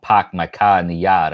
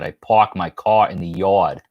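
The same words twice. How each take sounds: First: Mock Massachusetts accent, dropping the R's. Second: New York accent. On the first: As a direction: do a Boston-style "pahk my cah in the yahd". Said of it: "I'm not from Massachusetts". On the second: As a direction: own New York accent with every R sounded. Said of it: "I'm from New York". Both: Shown as a demonstration.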